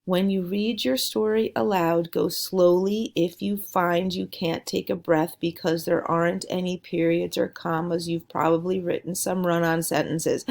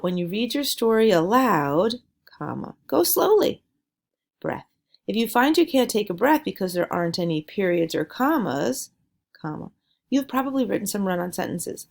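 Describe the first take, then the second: First: One breathless run with no pauses; a run-on read with no punctuation breaks; read without pauses. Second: Pausing at every comma; a read with the commas spoken aloud; reading with pauses. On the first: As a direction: rush it all in one breath, no stops. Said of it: "if I read it slowly and didn't have punctuation". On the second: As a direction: stop and take a breath at each comma. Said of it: "That's what happens when I left out". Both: Shown as a demonstration.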